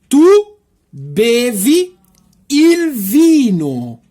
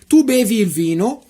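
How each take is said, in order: First: The sentence is spoken slowly. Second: The sentence is spoken quickly. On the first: "agora eu vou tentar de falar devagarzinho para você" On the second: "Agora eu vou falar rapidão as seis frases"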